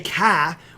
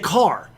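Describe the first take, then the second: First: The final r sound is dropped. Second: The final r sound is pronounced. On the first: "people in Boston say ca. We don't say ca" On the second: "We say car"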